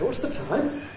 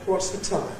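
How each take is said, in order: First: The pitch rises high at the end. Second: The pitch falls at the end. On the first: The speaker echoes a question asked by someone else. "I give it back with a rise" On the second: The speaker is asking the question. "an ordinary falling tone W H question"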